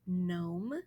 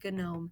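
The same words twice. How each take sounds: First: The G at the start is silent. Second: The G at the start is sounded. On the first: The speaker calls it right. "The G is silent, so we don't say it" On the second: The speaker calls it wrong. "these are not gnod or gnome"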